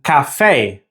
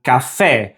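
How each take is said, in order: First: "café" ending in an English AY glide; English-accented pronunciation. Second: "café" ending in short, pure EH; short Spanish E. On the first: Teacher showing learners the common English habit, anglicised "café". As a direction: say "café" as ka-FAY, English-style. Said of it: "pronounce with an A sound". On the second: Teacher modelling the correct Spanish for learners, short-E "café". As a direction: say "café" as ka-FEH, without a glide. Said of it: "with that short E sound". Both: Shown as a demonstration.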